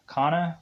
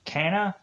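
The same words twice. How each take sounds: First: Kana said as KAH-nuh, open ah vowel; second name try. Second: Kana said as KAN-uh, short a like cat, rising; unsure name try. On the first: Narrator correcting the character's name to Kana with an open ah. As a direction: try Kana again with a broad ah. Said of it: "or Kana?". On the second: Narrator guessing the character's name, says Kana with a cat vowel, rising. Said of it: "Kana? Kai-, Ka-, Kanana?". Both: Shown as a demonstration.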